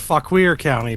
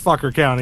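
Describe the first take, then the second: First: The second syllable sounds like 'weer'. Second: The second syllable sounds like 'er'. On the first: The speaker calls it wrong. "I said Fuckweir County" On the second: The speaker calls it right. "but it's Fucker County"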